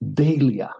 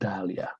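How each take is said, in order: First: The word has the alternative, British-accepted pronunciation. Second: The word has the usual American pronunciation. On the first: "another pronunciation which is both accepted by British English and American English" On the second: "usually Americans pronounce Dahlia"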